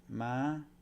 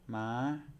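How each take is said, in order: First: The pitch is held high throughout. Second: The pitch is held high throughout.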